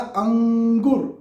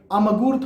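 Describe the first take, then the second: First: The nasal before g is an ng sound. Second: The nasal before g is a clear m. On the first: The speaker calls it right. "फिर लगाया अंगूर" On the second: The speaker calls it wrong. "अमगूर थोड़े कहते आप"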